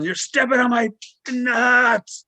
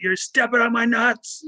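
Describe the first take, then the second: First: High, louder yell, dragging out nuts; retold yell. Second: High, slow strained call; retold yell. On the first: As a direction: yell it at him so he finally hears. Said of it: "And I'm yelling". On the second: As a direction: call out the pain, much higher and slow. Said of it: "finally I did yell".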